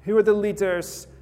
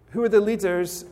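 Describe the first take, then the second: No difference in how they are said.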